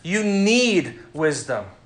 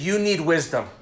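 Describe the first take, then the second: First: The stress falls on the word 'need'. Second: The stress falls on the word 'you'. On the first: "I emphasized each different word there" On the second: "I emphasized each different word there"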